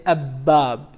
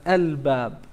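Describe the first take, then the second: First: "ab bab" with the b doubled, no l sound; "ab bab" said as the wrong example; wrong assimilated form. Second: "al bab" with a clear l before the b; "al bab" with the l sounded clearly; correct moon-letter form. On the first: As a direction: say "ab bab", merging the l into the b. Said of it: "You're not gonna say". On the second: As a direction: pronounce the l fully in "al bab". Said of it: "but al bab". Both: Shown as a demonstration.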